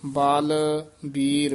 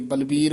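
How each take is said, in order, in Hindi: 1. दोनों अक्षर अलग-अलग शब्दों की तरह कहे जाते हैं। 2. दोनों अक्षर एक ही शब्द की तरह एक साथ जुड़कर कहे जाते हैं। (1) "ਭੋਜ ਬਾਲ ਵੀਰ" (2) "ਇਕੱਠਾ ਨਹੀਂ ਕਹਿ ਦੇਣਾ"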